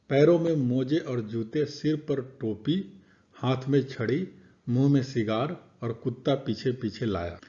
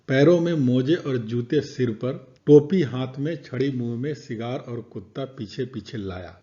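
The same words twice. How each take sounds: First: Pauses come after जूते, टोपी, छड़ी and cigar. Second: Pauses come after सिर पर, हाथ में and मुंह में.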